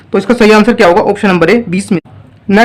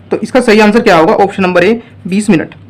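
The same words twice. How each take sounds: Both takes have the same delivery.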